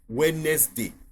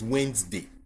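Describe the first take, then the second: First: Every letter is sounded as it is spelled. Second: It is said without following the spelling. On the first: The speaker calls it wrong. "that's not the way you pronounce it" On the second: The speaker calls it right. "it's Wednesday"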